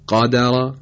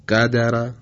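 First: قدر said dark and full; with isti'la. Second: قدر with a light, thin vowel; قدر said without heaviness; without isti'la. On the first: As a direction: raise the tongue on قدر. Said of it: "با استعلا". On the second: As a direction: keep قدر flat and light. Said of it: "بدون استعلا". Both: Shown as a demonstration.

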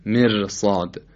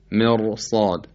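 First: مرصاد with a thin, trilled light r; wrong light ra. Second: مرصاد with a thick, dark r; heavy ra. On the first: Teacher repeating the mistake, thin light r in مرصاد. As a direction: keep the r of مرصاد thin, not heavy. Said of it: "نمیگیم مرصاد". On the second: Teacher showing the correct reading, heavy r in مرصاد. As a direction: make the r in مرصاد full and heavy. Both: Shown as a demonstration.

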